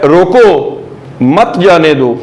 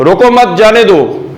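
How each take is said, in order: First: "रोको" left hanging, a pause, then "मत, जाने दो" together; pause after रोको. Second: Higher-pitched "रोको मत, जाने दो" with मत tied to रोको; quick, unbroken phrase. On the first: Teacher recaps the second reading for students, pausing after रोको. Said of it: "और दूसरा लफ्ज़ मैंने बोला है". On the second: Teacher recaps the first reading for students, रोको मत joined. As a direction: run रोको मत together without a pause, pitched up. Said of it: "तो पहला है लफ्ज़". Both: Shown as a demonstration.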